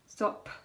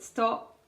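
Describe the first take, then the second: First: The final p is released with a puff. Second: The final p is held without release. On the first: The speaker calls it wrong. "rather than releasing that p" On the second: The speaker calls it right. "then catch it"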